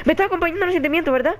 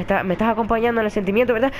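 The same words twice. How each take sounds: First: High, rushed, anxious question; nervous plea. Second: Said in the usual way. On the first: Real, not acted. Nervous player begging Alba for support, anxious plea. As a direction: race through it, pitched up, begging for company.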